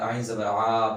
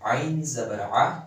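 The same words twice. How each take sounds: First: The final vowel is drawn out long. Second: The final vowel is kept short. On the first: The speaker calls it wrong. "लंबा नहीं करना है" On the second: The speaker calls it right. "इसे जो है ना छोटा पढ़ना है"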